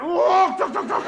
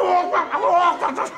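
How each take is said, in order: First: High, loud, sing-song calls of walk and duck; comic high-pitched chanting of walk and duck; high mock shouted walk and duck calls. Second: High, loud calls with walk pushed out first; the other man's comic high chant of walk and duck; high mock shouted walk and duck calls. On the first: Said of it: "So I went". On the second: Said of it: "And he went".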